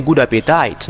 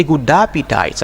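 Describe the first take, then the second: First: "appetite" as AP-eh-tite; wrong pronunciation. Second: "appetite" as AP-ih-tite; correct pronunciation. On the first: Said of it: "I don't say". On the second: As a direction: say "appetite" with an "ih" in the middle. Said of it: "I say". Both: Shown as a demonstration.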